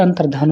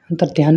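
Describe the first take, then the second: First: Said in the usual way. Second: अंतर्ध्यान ending in "dhyaan"; mispronunciation. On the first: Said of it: "अंतर्धान होता है". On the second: Shown as a demonstration. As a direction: add a y-glide in अंतर्ध्यान. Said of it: "अंतर्ध्यान नहीं होता". (अंतर्ध्यान में 'य' की ध्वनि के साथ)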